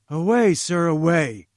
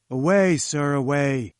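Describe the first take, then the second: First: Louder, higher, angry command to leave; angry dismissal. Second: Firm, louder and more controlled dismissal; dismissive. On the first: Challenger angrily orders Jones out, loud angry shout. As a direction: drive him out of the room with your voice. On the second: Challenger sends Jones away again, firm dismissive command. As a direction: wave him off, done with him. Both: Acted. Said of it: "he cried angrily".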